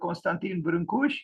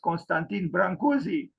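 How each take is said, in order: First: The surname is said with Romanian sounds. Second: The surname is said the usual foreign way. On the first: "This is the Romanian pronunciation" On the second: "well known outside of the country as"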